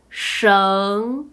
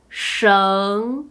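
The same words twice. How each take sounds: First: The pitch rises from middle to high. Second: The same.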